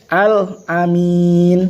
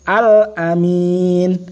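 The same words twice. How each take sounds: Both takes have the same delivery.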